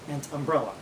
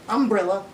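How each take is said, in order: First: The stress falls in its usual place. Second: The stress is moved to another syllable. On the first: "you talk about" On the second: "we change the emphasis"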